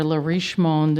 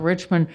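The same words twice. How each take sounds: First: Le Riche Monde as French, "reesh mond"; "Riche Monde" with a French sh and full second syllable; French pronunciation. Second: Said in the usual way. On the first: Real, not acted. Poet introducing her poem's French-themed title, French pronunciation. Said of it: "a little French theme here". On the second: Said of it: "It's about Richmond".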